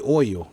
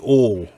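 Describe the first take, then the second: First: It is said with a northern accent. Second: It is said with a North Carolina accent.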